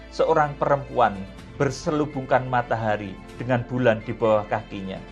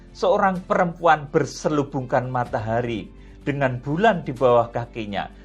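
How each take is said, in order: The two takes are said the same way.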